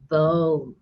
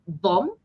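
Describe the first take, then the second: First: The vowel is stretched out long. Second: The vowel is short and clipped. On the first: The speaker calls it right. "we pronounce it as boom" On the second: The speaker calls it wrong. "we don't call it bomb"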